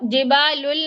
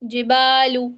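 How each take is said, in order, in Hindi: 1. शब्द का अंत जुड़ी हुई 'l' ध्वनि से होता है। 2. शब्द का अंत सादे 'u' स्वर पर होता है। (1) "जिबालुल नहीं है" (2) "पहले तो जिबालू, लाम पेश लू"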